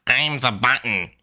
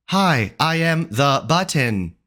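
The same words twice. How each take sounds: First: Squeaky mock chipmunk. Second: Slow, smooth assistant voice; Siri-like voice. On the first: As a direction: mimic the squeaky button voice. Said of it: "sound like a chipmunk on crack". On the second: Shown as a demonstration. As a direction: say it like a calm voice assistant. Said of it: "Even Siri is better".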